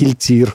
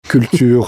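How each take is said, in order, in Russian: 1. Гласный произносится с растянутыми губами. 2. Гласный произносится с округлёнными губами.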